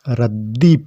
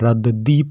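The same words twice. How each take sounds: First: The d is doubled with no vowel between. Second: The d is a full syllable with a vowel. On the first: "चिन्ह जब बन जाने पर इसको हम रद्दी पढ़ेंगे" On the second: "दा के नीचे कोई हलंत का चिन्ह नहीं होता तो हम इसको हम रद्दी पढ़ते"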